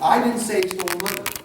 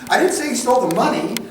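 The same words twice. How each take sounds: First: The word 'I' carries the main stress. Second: The word 'money' carries the main stress. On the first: Someone else said it. "who did say it then?" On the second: He stole something else. "What did he steal?"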